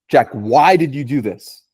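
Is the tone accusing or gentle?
accusing. The question sounds harsh and accusing. The asker is judging the listener. "there's a difference in how you're going to react"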